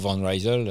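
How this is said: The name is said with an American pronunciation. "si tu es américain"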